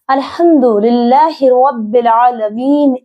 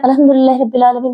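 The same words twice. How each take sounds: First: It is recited very slowly and drawn out. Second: It is recited very fast and rushed.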